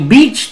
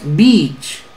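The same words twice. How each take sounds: First: The vowel is not lengthened. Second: The vowel is lengthened. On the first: The speaker calls it wrong. "ni beach tampoco es correcto" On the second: The speaker calls it right. "tienes que alargarla ahí"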